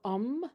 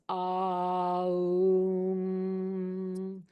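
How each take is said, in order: First: It is said as one short blended sound. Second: It is spread into three equally spaced sounds. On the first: "instead of um" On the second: "it's spaced out equally, the ah sound, the oo sound, and the mm sound"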